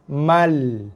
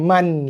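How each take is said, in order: First: The syllable ends in an l sound. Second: The syllable ends in an n sound. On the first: The speaker calls it right. "Ma terus skip kepada lam" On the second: The speaker calls it wrong. "Bukan man lagi"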